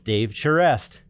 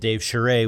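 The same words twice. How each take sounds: First: The surname is said with a Boston American pronunciation. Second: The surname is said with a French Canadian pronunciation. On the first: The speaker calls it right. "with the proper Bostonian pronunciation" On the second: The speaker calls it wrong. "with my French Canadian accent"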